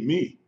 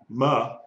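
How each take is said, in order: First: The vowel is a short 'eh' sound. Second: The vowel is an open 'ah' sound. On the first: The speaker calls it right. "M E, me" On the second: The speaker calls it wrong. "Not ma"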